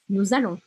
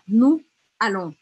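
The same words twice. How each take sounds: First: A z sound joins nous to allons. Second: No z sound joins nous to allons. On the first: The speaker calls it right. "Eu vou grudar a sonoridade" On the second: The speaker calls it wrong. "Eu não vou falar nous allons. Lembra que a gente não pronuncia o S no final das palavras?"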